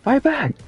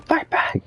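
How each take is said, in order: First: High mock battle cry; mimicking game shout. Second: Breathy high mock cry; squeaky whispered cry. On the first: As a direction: echo the game's cry, pitched up. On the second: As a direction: hiss it high and airy. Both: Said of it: "game's Fight back line".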